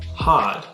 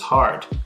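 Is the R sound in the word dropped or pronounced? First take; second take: dropped; pronounced. First: The R sound is left out. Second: The R sound is clearly pronounced. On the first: "Non-rhotic speakers don't pronounce the R" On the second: "Americans pronounce the R in words such as hard"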